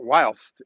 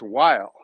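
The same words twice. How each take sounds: First: Whilst with a clear -st on the end; mispronounced word. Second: While with no st on the end; plain American while, ending on the l; corrected form. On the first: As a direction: whilst held up as the version to reject. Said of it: "you're mispronouncing it". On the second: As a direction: while stated firmly as the correction. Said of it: "it's while". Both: Shown as a demonstration.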